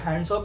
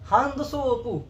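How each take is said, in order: First: It is said with plain English sounds. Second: It is said with Japanese-style added final vowel. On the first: "हम तो कहेंगे" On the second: "वो बोलेंगे हांद सोपू"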